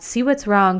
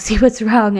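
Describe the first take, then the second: First: Said in the usual way. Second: Laughing through the repeated advice. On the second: Retold or imitated. Mocking friends' repeated advice.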